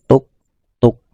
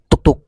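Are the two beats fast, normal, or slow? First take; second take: normal; fast. First: The two beats come at a moderate pace. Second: The two beats come very quickly together. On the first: This is the correct length of two beats. The speaker calls it right. "Ketukannya itu wajar saja" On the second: This makes the length too short. The speaker calls it wrong. "itu tidak wajar, itu terlalu cepat"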